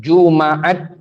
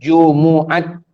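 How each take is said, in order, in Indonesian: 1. Vokal a panjang mengikuti m. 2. Vokal u mengikuti m.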